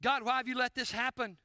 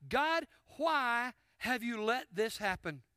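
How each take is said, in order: First: Said in the usual way. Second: Elijah pleading. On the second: Acted. Elijah's question voiced slowly.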